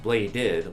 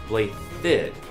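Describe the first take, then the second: First: The middle consonant is a D sound. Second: The middle consonant is a TH sound. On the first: The speaker calls it wrong. "not pronounced Bladid like it's spelled" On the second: The speaker calls it right. "pronounced Blythid with a T H sound"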